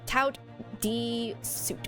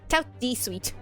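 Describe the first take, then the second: First: The phrase is pronounced in a deliberately mangled way. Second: The phrase is pronounced the French way. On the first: "I will say it incorrectly on purpose" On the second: "as Madame would say"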